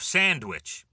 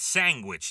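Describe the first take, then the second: First: The word is said with standard pronunciation. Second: The word is said with a Long Island pronunciation. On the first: "instead of sandwich" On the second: "it's sandwich. ... Long Island would probably do this a lot"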